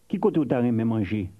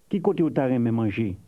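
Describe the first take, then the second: The two takes are said the same way.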